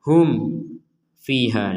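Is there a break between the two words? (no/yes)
yes. The two words sound separated by a break. The speaker calls it wrong. "seakan-akan ada kesan dipisah"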